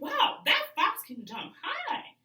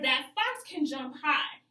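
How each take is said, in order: First: It is said in an excited tone. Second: It is said in a plain, calm tone.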